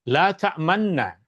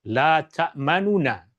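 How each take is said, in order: First: The two n sounds merge into one long n. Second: Two separate n sounds with a vowel between. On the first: "dimasukkan ke dalam huruf nun ... maka ia menjadi la ta'manna" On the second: "asal perkataan la ta'manuna"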